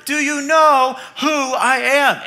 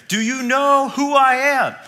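First: Slow, raised, drawn-out demand; a hammed-up celebrity bellowing at the cashier; louder mock yell. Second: Raised, slow, indignant demand; a hammed-up yell of wounded importance; mock celebrity yell. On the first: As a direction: push the star's outrage a notch further. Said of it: "he yells even louder". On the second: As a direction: play the offended star shouting at the cashier. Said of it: "he yells at the cashier".

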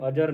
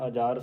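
First: ਅਜਰ with short second vowel, "ajar"; mispronounced ਅਜਰ. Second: ਅਜਰ with lengthened second vowel, "ajaar"; corrected ਅਜਰ. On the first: Teacher showing the reading to avoid, ਅਜਰ with short vowels. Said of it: "ਇਹਨੂੰ ਅਜਰ ਨਹੀਂ ਪੜ੍ਹਨਾ". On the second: Teacher modelling the reading, ਅਜਰ with long second vowel. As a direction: open and stretch the vowel after j in ਅਜਰ. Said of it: "ਐੜਾ ਸੰਬੰਧਕ ਲਾ ਕੇ ਪੜ੍ਹਨਾ ਹੈ". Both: Shown as a demonstration.

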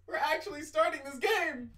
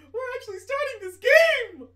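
First: Said in the usual way. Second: Much higher and louder thrilled yell; excited shout. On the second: Real, not acted. Streamer shouting to viewers that the game is starting, high and loud. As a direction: shout it the second time with full joy.

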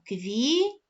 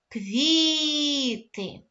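First: Said in the usual way. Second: Квіти called out loud and high, stress on КВІ; calling out the word. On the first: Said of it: "Правильно". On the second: Shown as a demonstration. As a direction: call квіти to the class, leaning on КВІ. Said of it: "Гукаємо слово". (гукаючи слово квіти з наголосом на КВІ)

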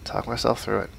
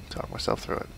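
First: Said in the usual way. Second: Whispered to himself; whispering. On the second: Real, not acted. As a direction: whisper it to calm down.

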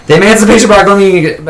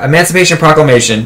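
First: High, rushed eager blurt; eager nerd. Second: Said in the usual way. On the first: Retold or imitated. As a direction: blurt "Emancipation Proclamation" high and fast. Nerd blurting trivia answers.

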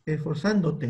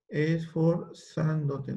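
First: Said in the usual way. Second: Esforzándote said very slowly, syllable by syllable; slow careful Esforzándote; slow dictation. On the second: Shown as a demonstration. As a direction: drag out Esforzándote for spelling.

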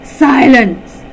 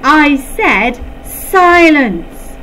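First: Loud, high command; thundering shout. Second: Louder, much higher and very slow; slow furious shout. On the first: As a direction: roar it at the giggling class. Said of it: "thundered Dread". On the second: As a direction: drag out every word in rage. Teacher repeats order, losing control. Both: A narrator's reading.

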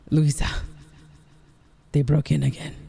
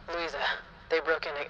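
First: Full-level take through voice effect; dramatic game line with voice effect; voice effect test. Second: Softer, thin voice-effect take; quiet filtered line, cut off; voice effect test. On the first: Streamer asks viewers if this one is good, voice effect. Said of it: "is this one good". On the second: Streamer trying out voice effects for viewers, filtered voice. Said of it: "no, I don't like that". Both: Shown as a demonstration.

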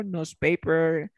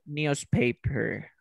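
First: Slow "newspaper" as "noozpaper"; American pronunciation. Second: Very slow "newspaper" as "nyoozpaper"; British pronunciation. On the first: Teacher sums up American form, slow "newspaper" as "noozpaper". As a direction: say "newspaper" slowly with no y-sound. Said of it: "en americano". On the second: Teacher sums up British form, very slow "newspaper" as "nyoozpaper". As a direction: stretch "newspaper", putting a y after the n. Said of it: "Británico". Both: Shown as a demonstration.

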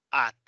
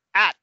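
First: "at" with open Spanish ah; Spanish-style pronunciation. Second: "At" with English a as in cat; native English pronunciation. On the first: Teacher showing the wrong take, Spanish vowel. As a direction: say "at" with plain Spanish a. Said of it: "como se dice en español". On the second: Teacher contrasting for class, native English vowel. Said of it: "Esa es la pronunciación nativa". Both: Shown as a demonstration.

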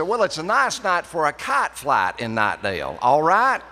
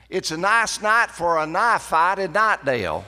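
First: Loud North Carolina country accent, softened line; country dialect demo. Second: High, loud North Carolina country accent with stretched vowels; country dialect demo. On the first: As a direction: try the local accent again with the kite line, loud and raised. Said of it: "they didn't like that". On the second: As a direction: show off the local Knightdale accent, loud and high. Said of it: "I was trying to demonstrate this". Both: Shown as a demonstration.

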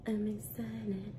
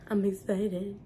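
First: Soft slow deadpan repeat; deadpan quiet. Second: Said in the usual way. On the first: Shown as a demonstration. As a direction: say it hushed and slow.

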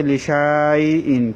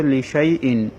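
First: "লিশাইইন" with shaa stretched long; reading as written. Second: "লিশাইইন" with short shai, no long aa; correct recitation. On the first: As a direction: say "লিশাইইন" dragging the alif after sh. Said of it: "এখানে লেখা আছে". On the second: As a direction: recite "লিশাইইন" leaving the alif silent. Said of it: "কিন্তু পড়তে হবে". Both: Shown as a demonstration.

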